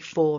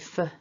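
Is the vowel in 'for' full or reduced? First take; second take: full; reduced. First: The word is said with a full strong vowel. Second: The word is said with a reduced weak vowel. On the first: The speaker calls it right. "It would be for and from, to emphasize" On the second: The speaker calls it wrong. "I wouldn't opt for weak forms. I wouldn't say for Susie"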